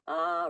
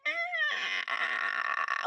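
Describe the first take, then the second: First: Light high head-voice ah. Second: High creaky strained ah like a door hinge; creaking groaning door voice. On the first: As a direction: sing a clean head-voice ah. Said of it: "You go in your head voice like". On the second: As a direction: squeeze a creaking door sound. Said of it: "But you sound like a creaking door". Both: Shown as a demonstration.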